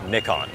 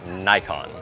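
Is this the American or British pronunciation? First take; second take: British; American. First: It is said the British, Japanese-like way. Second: It is said the American way. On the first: "Người Anh đọc nó giống tiếng Nhật hơn" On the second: "còn người Mỹ đọc là Nikon"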